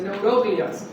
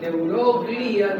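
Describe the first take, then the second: First: The stress falls on the syllable ro. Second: The stress falls on the syllable gli. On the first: The speaker calls it right. "se dice neuroglias" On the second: The speaker calls it wrong. "no se dice"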